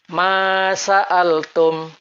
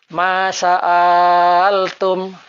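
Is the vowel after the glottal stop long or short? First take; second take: short; long. First: The vowel after the glottal stop is kept short. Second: The vowel after the glottal stop is drawn out long. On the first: The speaker calls it right. "Jadi membacanya pendek" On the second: The speaker calls it wrong. "Bacaan yang salah sekiranya hamzah kotok dipanjangkan"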